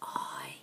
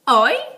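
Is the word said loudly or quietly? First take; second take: quietly; loudly. First: The word is said very quietly. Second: The word is shouted loudly. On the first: "Can you sit really quiet for the mice in the holes?" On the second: "Can you shout?"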